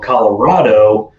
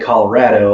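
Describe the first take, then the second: First: It is said the way outsiders say it. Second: It is said the way Colorado natives say it.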